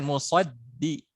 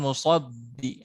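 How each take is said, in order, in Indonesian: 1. Bunyi d ringan dan tipis. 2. Bunyi d berat dan tebal. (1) "dal tipis kan"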